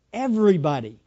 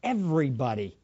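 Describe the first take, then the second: First: Emphatic. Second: Said in the usual way. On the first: Shown as a demonstration. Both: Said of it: "who do you want to tell".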